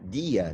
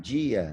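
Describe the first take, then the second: First: The d is a plain stop, not affricated. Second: The d is affricated, like a dj sound. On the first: "muito parecido com o D manezinho" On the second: "não dia"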